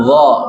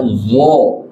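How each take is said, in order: First: Wo with open mouth; slow open wo; wo said mangap; correct wo. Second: Wo with pouted lips; pursed wo; wo said rounded; wrong wo. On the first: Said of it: "Tapi wo". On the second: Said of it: "Jangan dibaca wo". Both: Shown as a demonstration.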